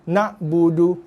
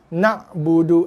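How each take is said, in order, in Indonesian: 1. Bunyi ain dihentikan dengan henti mendadak. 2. Bunyi ain dihentikan dengan henti mendadak.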